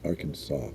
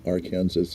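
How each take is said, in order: First: The ending sounds like saw, with no final s. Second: The ending sounds like Kansas, with a final s. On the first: "you pronounce it Arkansas" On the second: "put the letters A R in front of Kansas, it ch- goes from Arkansas"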